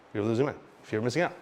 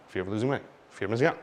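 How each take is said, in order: Both takes have the same delivery.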